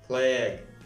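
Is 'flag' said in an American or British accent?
American. The vowel is raised, closer to an 'e' sound. "Американский вариант акцент больше ставит на букву E"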